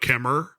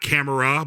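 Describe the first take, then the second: First: It is said in a put-on British accent. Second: It is said in a plain American accent. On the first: "they pronounce the A with the R sound" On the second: "not camera"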